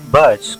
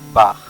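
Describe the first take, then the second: First: The name is read as spelled in Spanish. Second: The name is not read as spelled. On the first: The speaker calls it wrong. "no se pronuncia Bach como viene escrito en su nombre" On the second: The speaker calls it right. "su nombre se pronuncia Bach"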